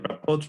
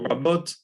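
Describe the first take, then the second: First: The middle consonant is a voiceless p. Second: The middle consonant is a voiced b. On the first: The speaker calls it wrong. "it would get devoiced. So we get rapot" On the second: The speaker calls it right. "we have a B in the middle there"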